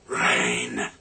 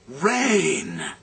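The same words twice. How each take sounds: First: It is said in a disgusted tone. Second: It is said in a relieved, glad tone.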